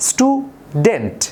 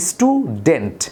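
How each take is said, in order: First: স্টুডেন্ট said slowly, split into stu-dent; broken into syllables. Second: Said in the usual way. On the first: Shown as a demonstration. Teacher showing students how স্টুডেন্ট splits into syllables. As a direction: pause between the syllables of স্টুডেন্ট. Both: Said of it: "আমরা ভেঙে ভেঙে বলি".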